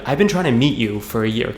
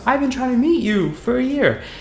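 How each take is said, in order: First: It sounds a little annoyed. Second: It sounds friendly, not annoyed.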